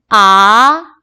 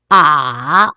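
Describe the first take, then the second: First: The pitch rises from mid to high. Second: The pitch dips low, then rises. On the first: "제 이성은 미에서 솔까지 올라가는 거예요" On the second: "레에서 도로 올라가 올라"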